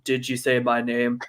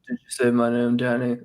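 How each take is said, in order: First: It is said with the mouth opening normally. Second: It is said with the mouth barely opening.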